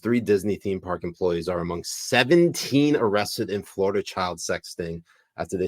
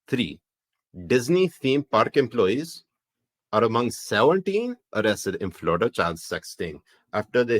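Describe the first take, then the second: First: It is read in the speaker's normal accent. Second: It is read in a Pakistani accent.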